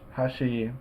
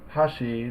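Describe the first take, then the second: First: Neither mora carries a pitch accent. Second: The pitch accent falls on the first mora. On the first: It means edge. "neither mora is accented" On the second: It means chopsticks. "the accent is on the first mora, ha"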